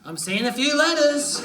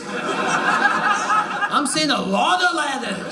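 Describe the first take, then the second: First: Said in the usual way. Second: Slow, drawn out. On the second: Acted. Slowed, drawn-out repeat.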